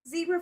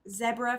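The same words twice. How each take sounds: First: It is said in an American pronunciation. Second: It is said in a British pronunciation. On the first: "for all of my American people" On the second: "for all of my overseas people ... with the Queen's English"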